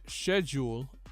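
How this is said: It is said with a British pronunciation. "while it's she- schedule in the U K"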